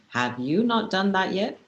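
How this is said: It sounds demanding, like giving an order.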